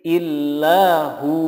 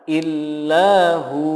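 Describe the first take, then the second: No difference in how they are said.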